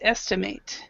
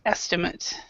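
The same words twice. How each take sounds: First: The word is pronounced in its verb form. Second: The word is pronounced in its noun form. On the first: It is the action of guessing a number. "the verb is estimate" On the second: It is a guessed number. "The noun is estimate"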